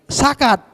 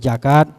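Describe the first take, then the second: First: The word begins with an s sound. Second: The word begins with a j sound. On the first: "Jadi za tadi jadi sin" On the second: "zakat jadi jakat"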